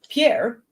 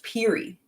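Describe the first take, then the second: First: The name sounds like 'pee-air', ending in air. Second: The name sounds like 'peery', ending in ee. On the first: This makes the speaker sound like an outsider. "I pronounced it as Pierre" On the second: This is how locals say it. "it's pronounced Peary"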